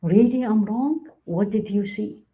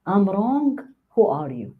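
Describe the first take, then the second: First: Slow, high rising surprise, then a curious question; drawn-out, wondering question, open to feedback; open, receptive questioning. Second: Defensive retort. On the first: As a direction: invite the correction with genuine interest. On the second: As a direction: push back at being corrected. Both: Shown as a demonstration. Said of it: "Huge difference".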